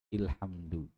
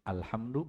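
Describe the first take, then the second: First: The word begins with an 'i' vowel. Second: The word begins with an 'a' vowel. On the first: The speaker calls it wrong. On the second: The speaker calls it right. "di fathah dia"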